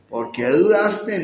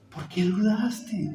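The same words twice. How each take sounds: First: It is asked harshly, as a scolding. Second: It is asked gently, with concern.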